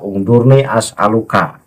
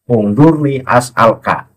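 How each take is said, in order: First: A 'u' vowel is heard before the final 'ka'. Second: No vowel is heard before the final 'ka'. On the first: The speaker calls it wrong. "itu dibaca ungdurni as'aluka ... Itu salah" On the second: The speaker calls it right. "harus disukun akhirnya ungdurni as'alka"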